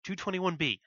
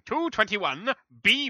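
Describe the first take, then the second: First: The B runs straight on from the number. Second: The B is set apart with odd inflection. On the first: B is part of the house number. The speaker calls it right. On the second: B sounds like a separate direction word. The speaker calls it wrong. "the inflection is weird"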